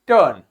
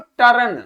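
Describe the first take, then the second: First: The r sound is pronounced very lightly. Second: The r sound is pronounced strongly. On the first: The speaker calls it right. "रा जो है बहुत हल्का सा आना चाहिए" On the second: The speaker calls it wrong. "आप में से बहुत से लोग जब इसको प्रोनाउंस करते हो तो बोलते हो टर्न"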